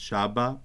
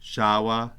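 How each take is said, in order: First: The middle consonant is a firm b sound. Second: The middle consonant is a soft w sound. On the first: The speaker calls it right. "it's shaba" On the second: The speaker calls it wrong. "that's why it's not shawa"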